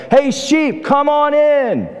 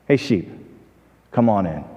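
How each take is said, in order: First: High, drawn-out holler without real volume; mock yell. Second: Low, soft, unhurried call; very calm. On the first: Young pastor hollers to sheep far off in the pasture, mock yell. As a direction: stretch it out as if calling across a field. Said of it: "So he yells it this time". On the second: Retold or imitated. Farmer calls his own sheep who know him, very calm. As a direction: say it gently, with a pause in the middle. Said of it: "the farmer said very calmly".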